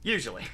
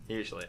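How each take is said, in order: First: Said in the usual way. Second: Quiet laughing repeat of Usually. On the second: Real, not acted. Getting the joke, repeating Usually with a soft laugh. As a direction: say Usually again much softer through a chuckle. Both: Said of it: "Oh, I get it".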